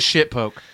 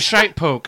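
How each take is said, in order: First: The first word has the short vowel of 'bit'. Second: The first word has the long vowel of 'bite'. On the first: The speaker calls it wrong. "No, I'm wrong" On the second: The speaker calls it right. "It's a shite poke"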